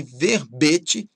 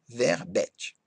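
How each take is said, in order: First: VERBETE slowly with closed ê; timbre fechado. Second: VERBETE with open é; timbre aberto, errado. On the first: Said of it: "com timbre fechado". (verbete com ê fechado) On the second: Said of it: "e não verbete". (verbete com é aberto) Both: Shown as a demonstration.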